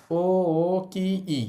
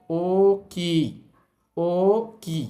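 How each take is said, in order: First: ও, ও, কি, ই with every vowel said as a separate beat; ও, ও, কি, ই chopped into four even syllables; broken vowels. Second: ও, কি, ও, কি with ও and কি each stretched long; long vowels. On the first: Teacher showing learners the wrong broken reading. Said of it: "ভেঙে ভেঙে এভাবে বলবো না". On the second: Teacher showing learners the right stretched reading. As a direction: draw out ও and কি instead of doubling them. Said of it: "আমরা বলবো". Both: Shown as a demonstration.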